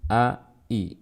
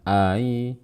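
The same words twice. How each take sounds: First: The second glottal stop is fully and clearly pronounced. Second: The second glottal stop is softened and glided. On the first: The speaker calls it right. "tapi ai" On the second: The speaker calls it wrong. "Jangan ai ya"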